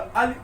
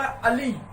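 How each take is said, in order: First: अली with a quick short ि; short i ending. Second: अली with the final ई held long; long ee ending. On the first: Teacher contrasting for students, short इ in अली. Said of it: "बहुत अल्प समय लगा". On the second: Teacher demonstrating to class, long ई in अली. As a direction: stretch the ली in अली. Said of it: "किस पे हम ज्यादा जोर दे रहे हैं". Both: Shown as a demonstration.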